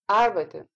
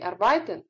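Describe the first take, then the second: First: The stress falls on the first syllable. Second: The stress falls on a later syllable. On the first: The speaker calls it right. "а arbeiten. Так будут говорить немцы" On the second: The speaker calls it wrong. "Не arbeiten"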